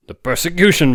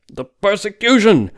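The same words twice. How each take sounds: First: Much higher and louder, eager; excited outburst. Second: Much higher, louder, slow and emphatic; insistent exclamation. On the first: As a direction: blurt out the revelation. Webber bursts out excitedly. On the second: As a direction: hammer the point home. Webber repeats it, insisting. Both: Acted.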